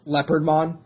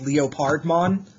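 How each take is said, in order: First: The start sounds like the animal word leopard. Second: The start is split into separate sounded parts. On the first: The speaker calls it right. "it's clearly Leopardmon. He's a leopard" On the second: The speaker calls it wrong. "pronounce it bit by bit uh, phonetically"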